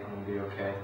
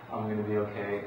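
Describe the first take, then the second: First: The repeat said much softer, to yourself; softer self-reassurance. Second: Said in the usual way. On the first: Shown as a demonstration. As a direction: tell yourself quietly it will be fine. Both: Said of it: "if all they do to be self-reassuring is".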